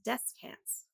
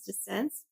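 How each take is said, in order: First: The last syllable sounds like 'cants'. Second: The last syllable sounds like 'cents'. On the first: The speaker calls it right. "It's not. It's descants" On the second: The speaker calls it wrong. "I was saying it incorrectly. I thought it was descents"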